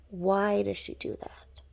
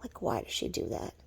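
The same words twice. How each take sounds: First: Slow, emphatic repeat of the question; drawn-out bafflement. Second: Low, soft, nearly whispered question; hushed bafflement. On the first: Wondering why she does that, drawn-out bafflement. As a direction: stretch the words out in disbelief. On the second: Asking why she does that, hushed bafflement. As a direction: murmur it under your breath, baffled. Asks in a hush, then repeats. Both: Real, not acted.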